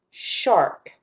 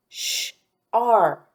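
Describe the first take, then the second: First: Said in the usual way. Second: Sh-ark split into sh, ar, k with gaps; sounded out. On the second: Shown as a demonstration. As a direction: separate each sound of sh-ark for a learner. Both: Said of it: "listening for the R sound".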